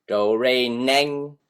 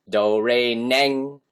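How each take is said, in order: The two takes are said the same way.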